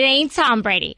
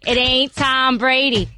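First: Jersey mom tossing off "It ain't Tom Brady" in passing; first "It ain't Tom Brady", said quickly in a Jersey accent; New Jersey mom accent. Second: Put-on "It ain't Tom Brady" repeated slowly, Jersey accent, leaning on "Tom"; slow emphatic repeat. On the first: Acted. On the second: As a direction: drag out "It ain't Tom Brady", each word weighted, stress on "Tom". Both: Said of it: "This is exactly how she sounds".

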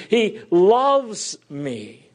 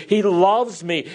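First: He LOVES me, drawn out slowly with weight on LOVES; slow right down and lean on LOVES; slow emphatic repeat. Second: Said in the usual way. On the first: Shown as a demonstration. Preacher assuring the congregation of God's love, slow and emphatic. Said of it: "repeated, slowed". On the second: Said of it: "repeated, second slower".

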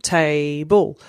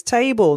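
First: Table split into two even beats, Ta-ble; syllable by syllable. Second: Said in the usual way. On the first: Shown as a demonstration. Parent to child counting syllables, Table jumped out in two beats. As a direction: jump once on each half of Table. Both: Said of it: "and then you jump".

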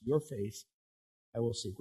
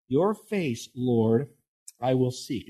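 First: "Your face, I will seek" much softer, like a vow; softer, promise-like quote. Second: Said in the usual way. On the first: Shown as a demonstration. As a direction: say it softly, as a quiet promise. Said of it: "It's kinda like a promise". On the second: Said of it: "He says".

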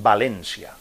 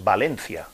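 First: "Valencia" with an s sound for the c; stressed E, "Valencia" said as "Valènsia"; Valencian pronunciation. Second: Said in the usual way. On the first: Retold or imitated. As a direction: imitate the official Valencian "Valencia". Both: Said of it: "con acento en la E".

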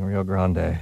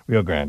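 First: Rio Grande with Grande as "grahn-day"; French-style Grande. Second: Rio Grande with Grande as "grand"; anglicized Grande. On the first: Host owning up to his habit, "Grande" said French-style as "grahn-day". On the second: Host correcting himself on the river's name, "Grande" said as English "grand". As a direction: say Grande flat as "grand", no final "ay". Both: Shown as a demonstration. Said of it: "put that French accent on everything".

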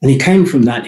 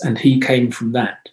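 First: "came" pressed louder in "And he came from that."; emphatic repeat with "came" stressed. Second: Said in the usual way. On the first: Shown as a demonstration. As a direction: lean hard on "came", falling at the end.

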